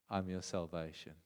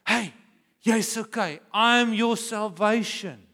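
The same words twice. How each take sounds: First: Soft, low, tender promise; gentle Jesus voice. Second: Reassuring God. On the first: Jesus telling Thomas softly he is his salvation. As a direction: speak it quietly, like Jesus comforting Thomas. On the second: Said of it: "he wants to say". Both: Acted.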